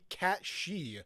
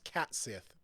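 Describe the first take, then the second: First: The name sounds like 'Cat She'. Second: The name sounds like 'Cat Sith'. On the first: "I bet you it's supposed to be cat she" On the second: "supposed to be pronounced Cat Sith because it's a cat"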